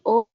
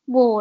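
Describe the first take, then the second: First: The syllable starts directly with the vowel. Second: The syllable starts with a w sound. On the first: This is the reading when it is used as a particle. "tapi berubah jadi o karena ini ada ada bintangnya" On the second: This is the character's usual reading. "ini sebenarnya dibacanya wo nanti"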